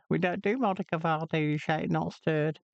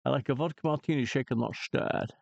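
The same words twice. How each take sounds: First: Mock retort in a higher voice; hint of a put-out barman; a light comic barman's answer; bartender's reply. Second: Scottish Bond accent, quick; lightly voiced Sean Connery; mild Scottish James Bond voice; Sean Connery impression. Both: Shown as a demonstration. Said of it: "that thing that I just said about the martini".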